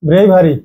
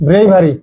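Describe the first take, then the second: No difference in how they are said.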